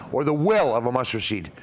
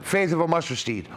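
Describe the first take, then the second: First: "will" stands out, then the rest falls away; stress on WILL. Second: Said in the usual way. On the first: Shown as a demonstration. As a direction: punch the word "will" as the replacement. Restates verse, swapping faith for will.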